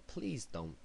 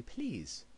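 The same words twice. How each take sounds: First: Put-on train announcement slipping into an American accent; lightly American-accented announcer. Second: High-pitched plummy British announcer; plummy English accent. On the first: Imitating the Tube speaker announcement, American accent. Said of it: "saying it in an American accent". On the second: Retold or imitated. Correcting the Tube announcement imitation, plummy English accent. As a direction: put on a plummy English "please", pitched well up. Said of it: "It's very plummy".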